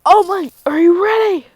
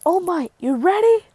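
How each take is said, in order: First: High, loud call to a partner; big, high-pitched hero's shout; acted rallying shout. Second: High, eager call; raised-pitch readiness check; acted rallying question. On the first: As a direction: yell the question as a battle rally. Deku repeats his call more forcefully. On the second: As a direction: call to a partner with rising pitch. Deku calls to All Might.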